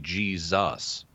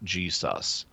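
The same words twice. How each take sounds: First: The middle consonant is a Z sound. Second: The middle consonant is an S sound. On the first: The speaker calls it right. "That's why we say Jesus" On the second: The speaker calls it wrong. "not Jesus"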